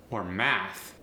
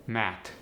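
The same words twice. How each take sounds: First: Said in the usual way. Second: "Mat" with hard final T. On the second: Shown as a demonstration. Teacher demoing TH as T. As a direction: end on a T not TH. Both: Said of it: "The voiceless T H can also go to a T".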